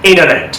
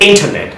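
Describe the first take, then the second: First: ইন্টারনেট as "INNER-net"; American N-only middle in ইন্টারনেট; American dropped T. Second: ইন্টারনেট as "IN-tah-net"; British crisp "nt" in ইন্টারনেট. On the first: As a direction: drop the T after N in ইন্টারনেট. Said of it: "এখন আমেরিকানে কীভাবে উচ্চারণটা দেখেন". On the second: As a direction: sound the T fully in ইন্টারনেট. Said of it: "British অ্যাকসেন্টে কিন্তু টি এর". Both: Shown as a demonstration.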